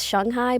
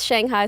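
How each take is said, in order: First: It is said with a Mandarin Chinese pronunciation. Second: It is said with an English pronunciation. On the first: This is the name as locals say it. "when I say it correctly" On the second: This is the name as most English speakers say it. "Everybody says Shanghai"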